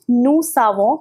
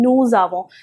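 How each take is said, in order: First: The linking sound is a hissing s. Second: The linking sound is a buzzing z. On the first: The speaker calls it wrong. "I am not saying nous savons" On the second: The speaker calls it right. "but I am saying nous avons"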